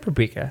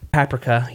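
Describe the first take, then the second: First: Paprika is said in a non-British way. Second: Paprika is said the British way. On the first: "I said paprika" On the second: "Or if you're one of our British folks"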